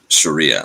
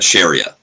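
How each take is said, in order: First: The word is pronounced in the ordinary way. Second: The word is pronounced in a deliberately distorted way.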